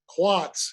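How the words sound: It is said with a Boston accent, r dropped.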